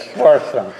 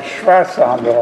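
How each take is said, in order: First: "Sforzando" said with a clear sf- start, stress on zan; correct pronunciation. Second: "Schwarzando", the near-miss version with shw instead of sf; contrast pronunciation. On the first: Guide correcting the organ term, saying the proper word. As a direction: settle on "Sforzando", sfor-ZAN-do, falling at the end. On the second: Guide explaining the organ term, saying the lookalike word. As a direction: say "Schwarzando" with a German schw sound at the start. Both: Shown as a demonstration. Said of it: "It's something like Schwarzando, only it's Sforzando".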